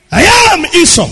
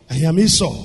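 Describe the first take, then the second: First: I am Esau, said up and firm; insistent claim. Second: I am Esau, dropped low and soft; soft repeat. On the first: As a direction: press the name Esau higher. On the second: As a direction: let the name Esau fall quiet. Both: Shown as a demonstration.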